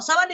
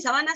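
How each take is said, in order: First: "sábana" hit on the first syllable; stress on SÁ of sábana. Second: "sabana" hit on the middle syllable; stress on BA of sabana. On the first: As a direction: lean on SÁ in "sábana". (acento en SÁ de «sábana») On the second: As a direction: lean on BA in "sabana". (acento en BA de «sabana») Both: Shown as a demonstration. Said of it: "Tienen diferentes significados".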